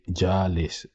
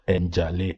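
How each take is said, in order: First: The name begins with a J sound. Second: The name begins with an N sound. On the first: This is how outsiders say the name. "this Caucasian is saying Jalis" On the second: This is how the owner says the name. "my name is, for example, Njale"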